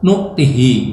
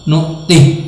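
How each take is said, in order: First: The vowel after the h is only half said. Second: The final h has no vowel after it. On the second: "membaca sukun hak"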